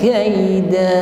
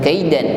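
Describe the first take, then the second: First: The word ends on a long open vowel. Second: The word ends with an n sound. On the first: The speaker calls it right. "kita baca kaida" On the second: The speaker calls it wrong. "bukan kaidan"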